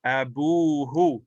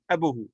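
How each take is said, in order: First: Abuhu, slow, with the bu held long; long waw vowel. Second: Abuhu quick, both u's short; short-vowel form. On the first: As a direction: stretch the first u of Abuhu into a long oo. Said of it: "it becomes a waw". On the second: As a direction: rattle abuhu off without lengthening the bu. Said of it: "Instead of". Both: Shown as a demonstration.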